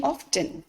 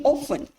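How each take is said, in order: First: "often" said as OFF-ten; "often" with the T fully pronounced; sounded T. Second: "often" said as OFF-en; "often" with no T sound; silent T. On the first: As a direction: say "often" with a clear T. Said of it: "We are not speaking often". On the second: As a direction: say "often" with the T left out. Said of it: "So T is silent there". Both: Shown as a demonstration.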